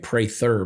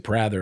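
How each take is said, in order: First: The first vowel is a long A. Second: The first vowel is a short A. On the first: "it kept the long A" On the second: "people still say"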